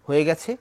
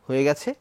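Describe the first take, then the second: Both takes have the same delivery.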